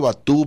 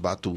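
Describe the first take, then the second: First: The stress is on the last syllable. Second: The stress is on the first syllable. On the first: "tengo como buen mexicano la tendencia a acentuar la última sílaba" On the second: "pero a lo mejor es Batú"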